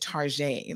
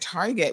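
First: The name is said in a fancy, posh way. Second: The name is said in a plain, ordinary way. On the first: The store is presented as upscale. "Like we try to make it sound all fancy" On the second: It is just a cheap everyday store. "instead of saying that we were going to Target"

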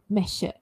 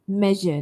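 First: The middle consonant is not voiced. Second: The middle consonant is a voiced zh sound. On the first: The speaker calls it wrong. "not measure" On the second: The speaker calls it right. "je there, measure"

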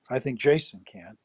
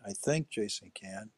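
First: The stress is on the word 'Jason'. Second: The stress is on the word 'think'.

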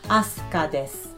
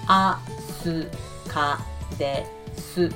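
First: Spoken at normal speed with the u vowels silent. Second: Spoken very slowly with each u vowel audible. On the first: "you cannot hear this oo sound" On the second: "if I say this sentence very slowly, each letter"

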